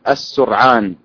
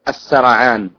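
First: The first vowel is u, with no vowel after r. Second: Both first syllables carry the vowel a. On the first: "ويجوز ضم السين وإسكان الراء" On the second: "بفتح السين والراء"

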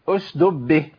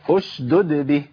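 First: The second d sound is dropped. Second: Both d sounds are clearly pronounced. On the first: The speaker calls it wrong. "اشدب فين الدال التانية؟ جاب الساكنة وضيع المتحركة" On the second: The speaker calls it right. "لازم ابين الدالين"

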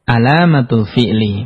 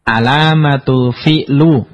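First: The final word ends in an i vowel. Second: The final word ends in a u vowel. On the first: The speaker calls it right. "Harus dibaca" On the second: The speaker calls it wrong. "enggak boleh"

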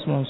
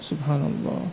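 First: The word is said very fast. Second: The word is said slowly, one at a time. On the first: The speaker calls it wrong. "dengan suara yang cepat sekali ... Terlalu cepat" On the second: The speaker calls it right.

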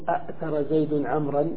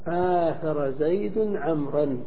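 First: The verb starts with two glottal stops in a row. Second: The verb starts with one stop and a long a. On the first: This is the form built by analogy alone. The speaker calls it wrong. "ما نقول أأثر زيد عمرا مع هذا القياس" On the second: This is the form actually used. The speaker calls it right. "وإنما تقول العرب آثر زيد عمرا وجوبا"

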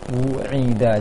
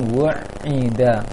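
First: The w passes cleanly into the ain sound. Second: The w sound lingers before the ain sound. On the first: The speaker calls it right. "seharusnya wu'ida" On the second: The speaker calls it wrong. "jangan wu'ida, nyangkut wawnya sebelum terucapkan ainnya"

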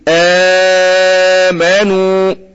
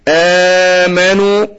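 First: The opening long vowel lasts four counts. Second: The opening long vowel lasts two counts. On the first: "وعنده اربعة" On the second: "عنده اتنين"

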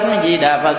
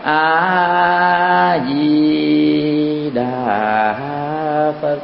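First: The phrase is recited quickly. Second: The phrase is recited slowly. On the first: "Nhanh cũng được" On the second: "hoặc chậm"

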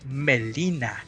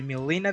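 First: The name is said in a distorted way. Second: The name is said the usual way. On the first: This is how the dub said the name. The speaker calls it wrong. "malas pronunciaciones" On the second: This is how the name should sound. The speaker calls it right. "en vez de Melina"

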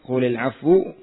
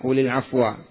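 First: The last word ends with a 'u' vowel. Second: The last word ends with an 'a' vowel. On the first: The word is the subject of the sentence. "Yang pertama rafa'" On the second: The word is the object of an omitted verb. "Yang kedua dengan fathah"

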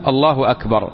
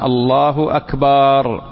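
First: The vowel after the b is kept short. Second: The vowel after the b is drawn out long. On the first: The phrase keeps its meaning of greatness. The speaker calls it right. "لذلك يقول الله أكبر" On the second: The word turns into the name of a small drum. The speaker calls it wrong. "فمن الخطأ ما يحصل فيها من التحريف، بحيث أنه يحصل فيها قلب للمعنى"

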